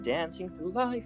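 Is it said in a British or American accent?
American. It is said in an American accent.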